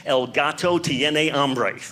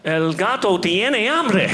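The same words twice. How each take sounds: First: Measured, careful classroom Spanish; slow school Spanish. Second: Higher, slow, drawn-out Spanish proclamation; dramatic heroic cry. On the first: Shown as a demonstration. Comic showing off the one Spanish sentence he knows, recited slowly. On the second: Pretend. Ready for the puma attacking in Peru, a slow dramatic cry. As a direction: call it out grandly, pitch climbing.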